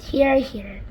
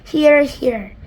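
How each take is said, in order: First: Louder echo of the cheer; shouted. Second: Loud cheering call; shouted. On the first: Creatures cheering the Ladybird, milder shout. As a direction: cheer agreement again. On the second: Creatures cheering the Ladybird, loud shout. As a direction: cheer agreement. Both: Acted. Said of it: "they all shouted".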